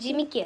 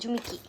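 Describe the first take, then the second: First: The first vowel is an 'i' sound. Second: The first vowel is a 'u' sound. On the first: The speaker calls it wrong. "ജിമിക്കി അല്ല" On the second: The speaker calls it right. "ശരിക്കും ജുമിക്കിയാണ്"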